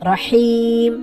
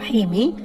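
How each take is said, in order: First: The word ends on the consonant m. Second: The word ends with a short vowel. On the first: The reader stops at this word. The speaker calls it right. "রহিম হবে" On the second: The reading continues without a stop. The speaker calls it wrong. "রহিমি না হয়ে"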